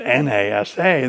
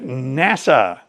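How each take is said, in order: First: It is spelled out letter by letter. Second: It is said as one word. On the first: The speaker calls it wrong. "nobody calls it NASA" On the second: The speaker calls it right. "They call it NASA"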